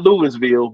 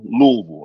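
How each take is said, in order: First: The name is said the non-local way. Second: The name is said the local way. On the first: The speaker calls it wrong. "not not Louisville" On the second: The speaker calls it right. "That's how they pronounce it"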